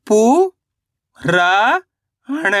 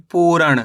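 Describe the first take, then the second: First: पू and रा long and rising, अण short; sound by sound. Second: Said in the usual way. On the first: Shown as a demonstration. Teacher breaking a word down for learners, syllable by syllable. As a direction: sound out पू ... रा ... अण with pauses. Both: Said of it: "तो मिलके बन जाएगा".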